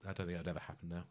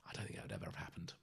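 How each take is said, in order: First: Said in the usual way. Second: Fast hushed whisper. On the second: Real, not acted. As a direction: breathe it out as a quick aside. Dropping to a private aside.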